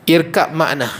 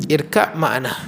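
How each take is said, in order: The two takes are said the same way.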